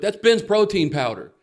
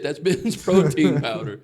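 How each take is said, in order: First: Shocked realization. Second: Laughing disbelief. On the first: Realizing the powder is protein. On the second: Repeats it, cracking up. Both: Retold or imitated.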